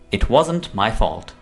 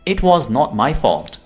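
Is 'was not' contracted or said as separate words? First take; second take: contracted; separate. First: Was and not are joined into wasn't. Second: Was and not are said as separate words.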